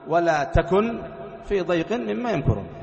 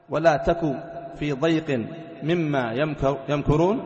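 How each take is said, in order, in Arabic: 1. ينتهي الفعل بنون ساكنة في الآخر. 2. ينتهي الفعل بدون نون ساكنة في الآخر. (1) "ويجوز أن تبقيها" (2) "تحذف النون جوازا"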